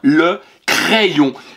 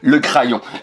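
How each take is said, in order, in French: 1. La première voyelle est un son 'eh'. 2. La première voyelle n'est pas un son 'eh'. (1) "C'est bien le crayon" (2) "il y en a certains qui se sont trompés, qui avaient dit au départ"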